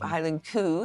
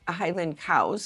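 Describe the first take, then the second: First: Cow is said with an 'oo' vowel sound. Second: Cow has the ordinary 'ow' vowel sound.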